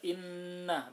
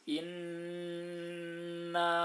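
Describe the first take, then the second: First: The n is held only briefly. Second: The nasal n is held for a long time. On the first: The speaker calls it wrong. "enggak cukup dibaca inna" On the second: The speaker calls it right. "jadi ditahan"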